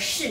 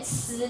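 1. 开头是卷舌的 sh 音。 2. 开头是平舌的 s 音。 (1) "我们的普通话可以念卷舌的士" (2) "你看到这个士的话你就念词就对了"

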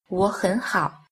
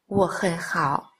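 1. Hai âm tiết đầu có thanh hai. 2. Cả ba âm tiết đều là thanh ba, giọng thấp và uốn xuống. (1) "hai thanh đầu đọc thành thanh hai" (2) "wo hen hao đọc thành"

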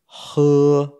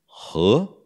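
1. O tom fica alto e plano. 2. O tom sobe de médio para alto. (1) "o verbo beber é em primeiro tom" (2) "a conjunção e é segundo tom"

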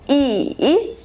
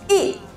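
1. Тон опускается низко, затем поднимается. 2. Тон резко и быстро падает. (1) "третьим тоном" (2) "четвертым тоном"

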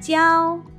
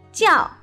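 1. 这个字是第一声，高平调。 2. 这个字是第四声，降调。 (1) "一个是第一声调教" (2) "一个是第四声调教"

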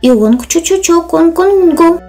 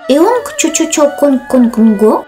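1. Голос в конце понижается, как при ответе. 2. Голос в конце повышается, как при вопросе. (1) "То есть да, это я, а в чем собственно дело?" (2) "что по-китайски означало: «Это вы знаменитый чародей?»"

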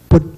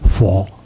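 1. 这个字读闽南话的音。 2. 这个字读普通话的音。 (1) "这是闽南话" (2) "北京话是佛"

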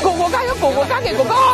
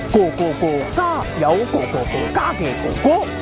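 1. 这句话说得很快，中间没有停顿。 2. 这句话说得很慢，中间有停顿。

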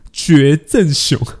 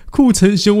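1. 第一个音节读作 'jue'。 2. 第一个音节读作 'ku'。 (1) "我念成绝正雄" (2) "还有库城雄"

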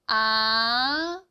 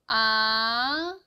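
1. 음이 낮은 데서 높은 데로 부드럽게 올라갑니다. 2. 음이 낮은 데서 높은 데로 부드럽게 올라갑니다.

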